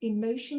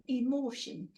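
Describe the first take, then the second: First: Said in the usual way. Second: Emotion in a Geordie accent, vowels broadened the Geordie way. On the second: Shown as a demonstration. Teacher trying out emotion in a Geordie accent for the class. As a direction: have a go at emotion with a Tyneside Geordie lilt. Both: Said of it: "should be said in a Geordie accent".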